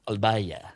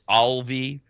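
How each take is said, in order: First: The name is said with a Spanish pronunciation. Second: The name is said with an American pronunciation. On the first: "They pronounce it Albaya" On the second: "that would be the the American pronunciation"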